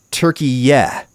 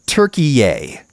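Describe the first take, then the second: First: Turkiye said as TUR-kee-yeh, ending in a short "yeh"; press-release Turkiye. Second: Turkiye said as TUR-kee-ay, ending in an open "ay"; narrator's Turkiye. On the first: Shown as a demonstration. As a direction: read Turkiye the way the phonetic spelling gives it, with "yeh" at the end. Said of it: "the phonetic spelling given in the press release said". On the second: Retold or imitated. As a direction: say Turkiye with a final "ay" sound, like the narrator of the video. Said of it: "the narrator said".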